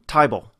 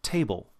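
First: The vowel sounds close to 'eye'. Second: The vowel has a moderate, weaker glide. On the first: "in an Australian dialect, at least some of them, where it becomes tibal" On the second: "the standard American version"

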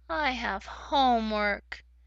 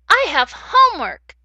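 First: The voice sounds sad. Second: The voice sounds happy. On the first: The speaker is unhappy about having homework. "If I was sad, it might sound like" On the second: The speaker is glad to have homework. "if I am happy about that, I could say"

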